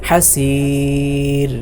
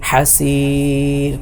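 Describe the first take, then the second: No difference in how they are said.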